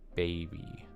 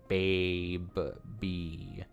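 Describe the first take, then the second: First: It is said quickly, run together as one word. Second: It is said slowly as two separate parts. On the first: "when you're just saying it fast" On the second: "if you're saying it slowly"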